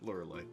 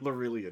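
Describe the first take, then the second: First: The name ends with an 'eye' sound. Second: The name ends with an 'ee-uh' sound. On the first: The speaker calls it wrong. "I messed up the name" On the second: The speaker calls it right. "Should have been"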